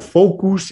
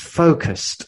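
First: The word ends without a final t sound. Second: The word ends with a final t sound. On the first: The speaker calls it wrong. "It's not focus" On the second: The speaker calls it right. "it's focused"

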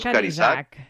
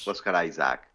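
First: The name is pronounced with Spanish sounds. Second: The name is pronounced with English sounds. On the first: "però en realitat si dius" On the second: "ho pronunciem a l'anglesa"

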